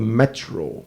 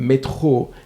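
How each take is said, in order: First: It is said with an English accent. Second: It is said with a French accent. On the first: "what we call the metro" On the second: "in the French uh, accents"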